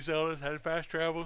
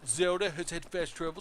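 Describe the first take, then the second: First: It is said in the speaker's ordinary voice. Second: It is said in a mocking put-on voice. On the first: The speaker calls it wrong. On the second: The speaker calls it right.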